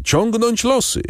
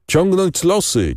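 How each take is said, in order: First: Even higher, climbing repeat of the call; bandits calling out louder. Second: Raised, slow chanting call, much higher; bandits calling out. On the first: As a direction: push the repeat up, more insistent. (wołanie jeszcze wyżej, bardziej natarczywe) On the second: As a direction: call it out to the chief like a rowdy bandit. (głośne, powolne wołanie, znacznie wyżej) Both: A narrator's reading. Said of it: "wołali jeden przez drugiego bandyci".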